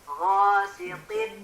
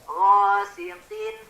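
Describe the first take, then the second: Both takes have the same delivery.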